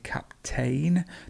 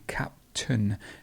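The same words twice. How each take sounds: First: The stress is on the second syllable. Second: The stress is on the first syllable. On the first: The speaker calls it wrong. "lots of people might say captain" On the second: The speaker calls it right. "The stress is actually at the beginning of the word"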